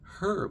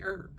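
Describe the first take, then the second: First: The word starts with a clear h sound. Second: The word starts with no h sound. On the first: "in England they wouldn't be like" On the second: "we say herb. Easier"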